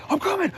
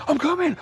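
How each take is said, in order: The two takes are said the same way.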